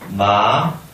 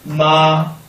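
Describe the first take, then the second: First: It is said with the second tone. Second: It is said with the first tone. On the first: "이성" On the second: "일성"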